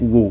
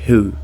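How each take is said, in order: First: The word starts with a W sound. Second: The word starts with an H sound. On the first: The speaker calls it wrong. "aqui a gente não vai pronunciar o W ... eu não vou dizer who" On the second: The speaker calls it right. "eu vou dizer who"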